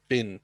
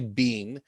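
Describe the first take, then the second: First: The vowel is short, like in 'bin'. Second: The vowel is long, like in 'bean'. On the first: "that bin sound. It's not like mister Bean" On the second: "If you say bean, that's okay"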